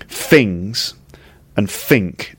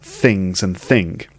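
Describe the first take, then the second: First: It is said in a Cockney-like London accent. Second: It is said in a standard, non-Cockney accent. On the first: "that's a little bit like Cockney, because they say things like"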